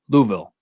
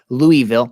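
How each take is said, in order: First: It is said quickly with syllables squeezed together. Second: It is said slowly with every syllable full. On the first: The speaker calls it right. "no, Louisville. Like as quick as you can" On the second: The speaker calls it wrong. "Be careful if you say that wrong"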